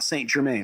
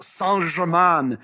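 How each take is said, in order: First: The name is said with an American accent. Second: The name is said with a French accent. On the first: The speaker calls it wrong. "not Saint Germain" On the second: The speaker calls it right. "It's it's pronounced Saint Germain"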